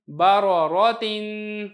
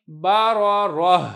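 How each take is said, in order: First: Slow "बा रो रो तीन" with held nasal ending; reading without waqf. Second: "बा रो रो" closing on a breathed h; waqf reading. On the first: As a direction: demonstrate "बा रो रो तीन", tanween sounded. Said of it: "वक़फ़ के बगैर". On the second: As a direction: stop "बा रो रो" on h, tanween dropped. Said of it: "जब हम वक़फ़ करेंगे". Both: Shown as a demonstration.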